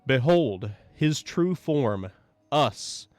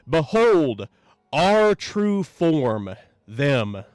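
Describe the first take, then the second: First: It is said a little louder. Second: It is shouted with a trailing neigh.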